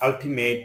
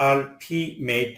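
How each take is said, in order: First: Said in the usual way. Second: "ultimate" pulled apart for learners; split syllables. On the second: Shown as a demonstration. Word split by syllable, then whole.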